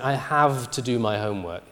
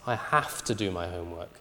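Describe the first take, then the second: First: The consonant in have is a voiced v. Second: The consonant in have is a voiceless f. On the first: The speaker calls it wrong. "you can't say something like" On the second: The speaker calls it right.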